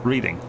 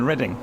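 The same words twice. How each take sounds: First: The name is said just as it is spelled. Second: The name is said the real, non-literal way.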